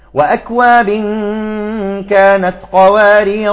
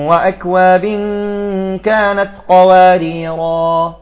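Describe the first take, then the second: First: The last word ends on the 'r' sound. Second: The last word ends with a long 'a' vowel. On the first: The reciter continues to the next words. "إذا أردنا أن نصل" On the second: The reciter stops after this word. "الوقف"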